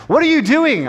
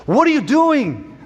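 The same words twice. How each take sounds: First: High-pitched, louder mock British policeman; hammed-up British officer, swooping up high; botched British accent. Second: High, stretched mock British policeman; hammed-up British officer's demand; botched British accent. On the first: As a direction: demand it in a badly faked British accent. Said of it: "I'm not gonna try to do any kind of British accent here". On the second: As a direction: put on a badly faked British accent, pitched way up. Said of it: "I don't know what that accent was".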